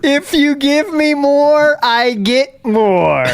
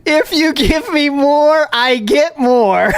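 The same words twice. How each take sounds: First: High and very slow, word by word; extra slow, high, patronising; slower mock repeat. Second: High, slow, spelled out; slow, high, patronising; slow mock explanation. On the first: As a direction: spell it out even slower. Repeating the tip logic. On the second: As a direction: talk them through it like children. Explaining tip logic mockingly.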